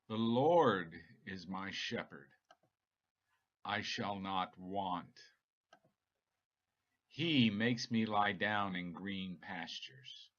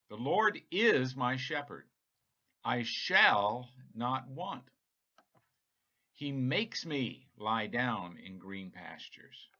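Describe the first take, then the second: First: Only the most important words are emphasized. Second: Emphasis is not placed only on key words.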